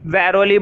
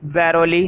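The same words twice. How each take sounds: First: The word ends with an 'ee' sound. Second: The same.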